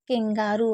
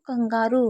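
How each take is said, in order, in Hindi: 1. पहला स्वर 'e' जैसा सुनाई देता है। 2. पहला स्वर 'a' जैसा सुनाई देता है। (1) "जब हम उसे इंग्लिश में बोलते हैं तो वो केंगारू होता है" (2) "जब हम हिंदी में नाम बोलते हैं कंगारू तो वो कंगारू होता है"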